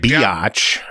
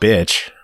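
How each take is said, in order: First: The word is said with two syllables. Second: The word is said with one syllable. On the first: "that's two" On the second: "but if you just say bitch"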